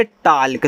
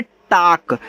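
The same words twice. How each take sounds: First: टाल्क, the L pronounced as spelt; L wrongly sounded. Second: टाक, long open vowel, no l before the k; silent L. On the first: Teacher mimics untrained learners, L sounded in टाल्क. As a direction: say टाल्क with an audible l before the k. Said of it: "जिनको तरीका नहीं पता वो पढ़ेंगे". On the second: Teacher shows learners the correct word, silent L in टाक. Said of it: "इसको पढ़ते हैं". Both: Shown as a demonstration.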